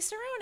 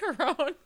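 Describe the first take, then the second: First: The name begins with an S sound. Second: The name begins with a hard K sound. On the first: The speaker calls it right. "It's a C that sounds like an S" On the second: The speaker calls it wrong. "like a hard C"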